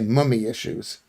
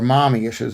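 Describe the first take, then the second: First: The first vowel is the British 'uh' sound. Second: The first vowel is the open American 'ah'. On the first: "You say mummy issues" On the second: "as we, we would say it in America"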